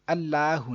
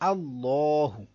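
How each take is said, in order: First: The L is light and thin. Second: The L is heavy and thick. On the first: The speaker calls it wrong. "अल्लाहु नहीं" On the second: The speaker calls it right. "सही है"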